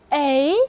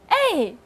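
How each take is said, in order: First: The pitch rises from mid to high. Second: The pitch falls sharply from high to low. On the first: "二声A" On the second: "四声是哎"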